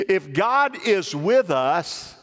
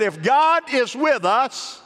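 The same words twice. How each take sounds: First: Slow, deliberate reading at usual pitch; measured scripture prompt. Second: GOD drawn out slow and pitched high; emphatic repeat. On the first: Preacher prompting the congregation to finish the verse, measured. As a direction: draw it out and leave it open for an answer. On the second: Preacher repeating the verse for the congregation to answer, emphatic. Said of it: "Let me say it again. I said". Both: Real, not acted.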